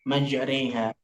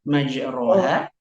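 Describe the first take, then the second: First: The vowel after r leans toward e. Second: The vowel after r is a plain open a. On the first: This is how the word is recited by tradition. "secara kirah dibaca majreha" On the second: This is how the word is written. "tertulis majroha"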